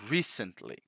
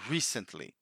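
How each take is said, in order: First: The stress falls on the first syllable. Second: The same.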